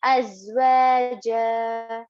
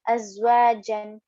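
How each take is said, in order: First: "Azwaja" with a long held final ja, no n; alif madda ending. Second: "azwajan" ending in a short jan with n sounded; read as written. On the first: Teacher showing the end of the ayah, drawn-out "ja". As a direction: stretch wa, then hold ja longer and level. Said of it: "read it as alif madda". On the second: Teacher showing the reading to avoid, n sounded in "azwajan". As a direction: close "azwajan" on the noon, last vowel unstretched. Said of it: "not going to read it as it is written". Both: Shown as a demonstration.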